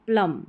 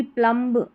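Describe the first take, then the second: First: प्लम ending on m; silent b. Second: प्लम्ब with final b sounded; audible b closing प्लम्ब; wrong pronunciation. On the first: Teacher correcting students, प्लम with silent b. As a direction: say प्लम without the b. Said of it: "इस तरीके से". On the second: Teacher showing the mistake, b voiced in प्लम्ब. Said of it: "और ये भी प्लम्ब नहीं". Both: Shown as a demonstration.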